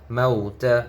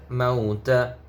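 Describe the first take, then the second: No difference in how they are said.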